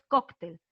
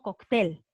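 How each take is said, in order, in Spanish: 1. El acento está en la primera sílaba. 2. El acento está en la última sílaba. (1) "lo correcto es cóctel; La fuerza de voz está en coc" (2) "no cóctel"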